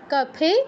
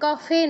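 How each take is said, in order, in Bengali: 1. মাঝের ব্যঞ্জনটি দুই ঠোঁট দিয়ে তৈরি। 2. মাঝের ব্যঞ্জনটি দাঁত আর ঠোঁট দিয়ে তৈরি।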